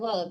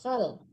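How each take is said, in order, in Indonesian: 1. Suku kata itu diawali bunyi g keras. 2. Suku kata itu diawali bunyi kh serak.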